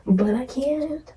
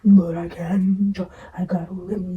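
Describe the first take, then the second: First: Said in the usual way. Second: Whisper. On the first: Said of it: "repeated take". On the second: Shown as a demonstration. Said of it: "whispered take".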